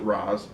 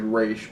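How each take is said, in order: First: The name ends with an s sound. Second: The name ends with an sh sound. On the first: This is how the show pronounces the name. "they pronounce it Roz" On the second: This is the original pronunciation of the name. "it's actually Raish"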